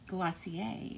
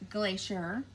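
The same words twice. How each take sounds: First: It is said with a French pronunciation. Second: It is said with an English pronunciation.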